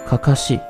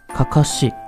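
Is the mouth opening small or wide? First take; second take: small; small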